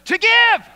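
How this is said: It is said in a warm, expansive happy tone. "Now say it like you're joyful and generous"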